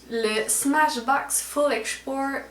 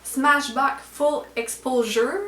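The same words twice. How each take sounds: First: 'Le Smashbox Full Export' read slowly in French-accented English, 'Export' in place of Exposure; fumbled English brand name. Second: 'Smashbox Full Exposure' read slowly and carefully in French-accented English, 'Exposure' fixed; corrected English brand name. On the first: Reading a mascara name to viewers, slow fumbled English. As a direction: sound out 'Full Export' slowly, getting the last word wrong. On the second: Correcting herself for viewers, slow careful English. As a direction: carefully get 'Full Exposure' right this time.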